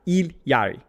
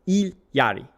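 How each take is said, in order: Both takes have the same delivery.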